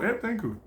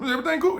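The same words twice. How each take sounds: First: Quiet answer. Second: Everything cool? asked with a rising tune, higher; asking question. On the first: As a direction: mumble the reply back down. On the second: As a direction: ask it brightly, rising on cool. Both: Acted. Question then answer repeated.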